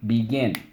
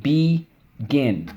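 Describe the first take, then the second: First: Said in the usual way. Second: "Begin" split slowly into be, gin; syllable by syllable. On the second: Shown as a demonstration. Teacher leads class through the spelling word, syllable by syllable. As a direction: say "Begin" as two separate drawn-out syllables. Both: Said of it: "let's go".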